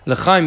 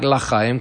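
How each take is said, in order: First: The first vowel is short and reduced. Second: The first vowel is a full 'ah' sound. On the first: It means for life. The speaker calls it right. "you say with the Shva underneath the Lamed" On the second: It could imply not life. The speaker calls it wrong. "You don't say with the Patach, so it shouldn't be sound like L'chaim"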